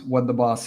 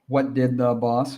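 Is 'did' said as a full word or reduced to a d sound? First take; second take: d sound; full word. First: 'Did' shrinks to a d sound joined to 'what'. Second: 'Did' is said as a full separate word.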